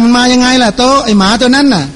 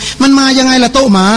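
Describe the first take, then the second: First: "โต๊ะ" closes the question, "ไอ้หมาตัวนั้นน่ะ" set apart; higher question, addressing "โต๊ะ" before naming "ไอ้หมาตัวนั้นน่ะ"; phrased as if spaced. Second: "โต๊ะหมา" run together with no pause; slow higher question, "โต๊ะหมา" as one name. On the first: Shown as a demonstration. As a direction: make "โต๊ะ" the person addressed, separate from "ไอ้หมา". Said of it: "น่าจะเว้นวรรค". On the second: Retold or imitated. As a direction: ask it higher, joining "โต๊ะ" straight onto "หมา". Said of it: "ไม่เว้นวรรค".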